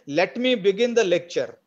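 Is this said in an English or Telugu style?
Telugu. Every syllable is pronounced fully and separately. The speaker calls it wrong. "The Telugu way"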